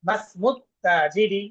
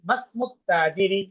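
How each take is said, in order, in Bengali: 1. ma সরাসরি smu-র সঙ্গে মিশে masmu হয়ে যায়। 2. ma সরাসরি smu-র সঙ্গে মিশে masmu হয়ে যায়।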